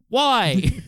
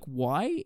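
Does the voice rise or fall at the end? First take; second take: fall; rise. First: It is said as a falling exclamation. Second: It is said as a rising question.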